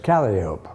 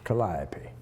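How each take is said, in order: First: It is said with the common colloquial pronunciation. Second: It is said with the original Greek pronunciation. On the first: It is the everyday name for the instrument. The speaker calls it wrong. "Mispronounced everywhere as Calliope" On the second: It is the goddess's proper name. The speaker calls it right. "the Greek goddess of beautiful sound was Calliope"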